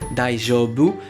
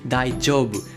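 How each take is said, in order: First: The j is a soft French-style j sound. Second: The j is a dj sound joined together. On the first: The speaker calls it wrong. "ce n'est pas un J comme en français" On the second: The speaker calls it right. "comme si vous aviez un D et un J collés ensemble"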